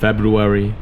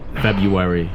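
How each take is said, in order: First: Every sound in the word is said fully. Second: The word is said in a relaxed, reduced way. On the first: "if you really want to have your pronunciation perfect" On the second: "if you just want to speak casually"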